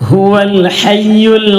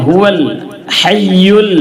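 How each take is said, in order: No difference in how they are said.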